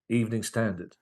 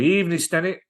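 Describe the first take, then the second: First: The second word is clearly 'standard'. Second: The second word sounds like 'Stennet'. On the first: The speaker calls it right. "teaches Eric to say it correctly" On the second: The speaker calls it wrong. "Eric's going"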